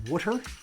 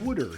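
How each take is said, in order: First: It is said in a non-Philadelphia accent. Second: It is said in a Philadelphia accent.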